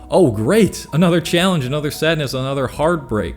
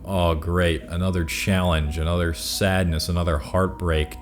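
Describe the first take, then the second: First: The tone sounds upbeat and eager. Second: The tone sounds sarcastic and weary. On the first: Challenges are welcomed as chances to grow. The speaker calls it right. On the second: Challenges are seen as a burden. The speaker calls it wrong. "changing the intonation of your voice from"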